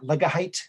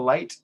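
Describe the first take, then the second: First: The G and H are sounded as extra syllables. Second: The G and H are silent, one syllable.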